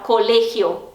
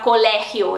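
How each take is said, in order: First: "colegio" with a closed e and a throaty g; Spanish "colegio", closed e; Spanish pronunciation. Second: "colegio" with a Portuguese open e; mock wrong "colegio"; wrong Portuguese-style. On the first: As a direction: say "colegio" as co-LEH-hio, closed e. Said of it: "eles vão falar colegio". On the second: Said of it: "eles não vão falar colegio". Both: Shown as a demonstration.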